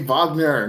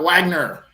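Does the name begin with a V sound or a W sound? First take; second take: V sound; W sound. First: The name begins with a V sound. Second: The name begins with a W sound. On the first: This is the name's proper pronunciation. The speaker calls it right. "can you please say Wagner" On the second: This imitates a character's country pronunciation. The speaker calls it wrong. "not Wagner"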